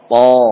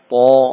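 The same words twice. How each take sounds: First: The vowel is said with lips simply open. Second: The vowel is said with pushed, rounded lips. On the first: The speaker calls it right. "Bibir cukup mengikuti gerakan rahang. Membuka saja" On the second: The speaker calls it wrong. "contoh yang salah"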